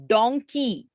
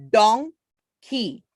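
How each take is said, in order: First: Said in the usual way. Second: "donkey" very slowly as don, gap, key; first half of "donkey" rising, second falling after a pause; split into syllables. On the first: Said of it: "Now, for example". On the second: Shown as a demonstration. Teacher showing two-syllable words, "donkey" slowly split. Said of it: "Two syllables".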